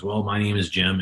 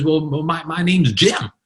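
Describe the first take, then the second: First: Understated, subdued introduction; mildly downcast. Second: High, eager imitated introduction; lit up. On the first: Retold or imitated. Downcast storm victim answering a reporter, mildly subdued. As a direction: play a storm victim, a touch down. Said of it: "he's pretty down in himself right now". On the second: Upbeat storm survivor answering a reporter, lit up. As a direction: play the survivor bursting to answer. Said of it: "this guy was lit up".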